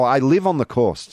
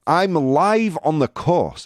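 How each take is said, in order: First: "live" said to rhyme with "give"; corrected "live". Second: "live" said to rhyme with "five"; misread "live". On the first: Host correcting a misread chat message, "live" rhyming with "give". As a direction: say "live" with a short i, as the verb. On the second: Host misreading a chat message, "live" rhyming with "five". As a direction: read "live" with a long i, as in live broadcast. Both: Real, not acted. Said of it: "Sorry, my bad".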